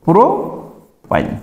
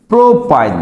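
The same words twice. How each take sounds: First: propyne stretched very slowly, trailing softer; slowly drawn out. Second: Said in the usual way. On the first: Shown as a demonstration. Teacher drilling the class on the name, slow and stretched. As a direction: give propyne slowly so they can repeat. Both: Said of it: "তার মানে হলো কি?".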